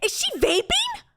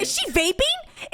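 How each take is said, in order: First: Higher, slower incredulous repeat; incredulous disbelief. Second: High slow incredulous question; incredulous disbelief. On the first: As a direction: stretch out the disbelief. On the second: Disbelief at woman vaping. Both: Real, not acted.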